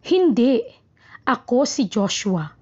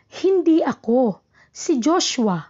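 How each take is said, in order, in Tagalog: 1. May hinto kaagad pagkatapos ng hindi. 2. May hinto kaagad pagkatapos ng ako. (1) "ang hinto ay pagkatapos ng hindi" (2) "ang hinto ay nasa ako"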